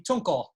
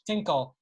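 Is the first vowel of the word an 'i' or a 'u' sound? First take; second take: u; i. First: The first vowel is a rounded 'u' sound. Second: The first vowel is an unrounded 'i' sound. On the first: This is the standard form of the word. "Standard Yiddish would be tunkel"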